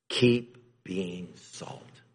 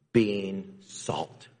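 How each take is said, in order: First: "Keep being salt" slow, with a fall on "Keep"; "Keep being salt" drawn out as the takeaway; slow emphatic refrain. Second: Said in the usual way. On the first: Shown as a demonstration. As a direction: press the refrain home slowly.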